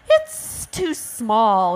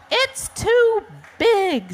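First: Slow, drawn-out hissing refusal; storybook ostrich hiss. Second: Slow, high-pitched squawk; shrieky storybook bird complaint; squawking auk. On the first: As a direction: stretch it out with a hiss. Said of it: "hissed the ostrich". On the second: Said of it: "squawked the auk". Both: Acted.

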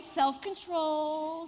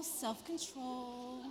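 First: Slow deliberate self-control; calm yourself, word by word; self-control mantra. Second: Self-control slow and softer. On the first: Teacher reins herself in, slow and deliberate. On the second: Teacher repeats to herself, slow and softer. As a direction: quietly settle yourself. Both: Real, not acted. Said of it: "But I refrained".

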